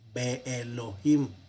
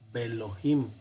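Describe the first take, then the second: First: The first syllable is split off from Elohim. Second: The syllables run together as one word. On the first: The speaker calls it wrong. "no es Be Elohim" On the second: The speaker calls it right. "sino Belohim"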